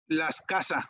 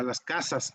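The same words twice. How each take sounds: First: "las casas" with casas losing its final S, "las casa"; plural S dropped. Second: "las casas" with the final S sounded on casas; plural S pronounced. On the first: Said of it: "dice, ¿a eso qué?". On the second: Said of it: "plural con plural y así". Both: Shown as a demonstration.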